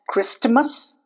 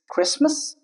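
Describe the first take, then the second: First: The T is pronounced. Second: The T is silent. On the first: The speaker calls it wrong. "it's not Christmas" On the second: The speaker calls it right. "it's Christmas"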